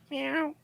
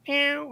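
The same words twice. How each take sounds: First: The meow is very faint and quiet. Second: The meow is a bit louder.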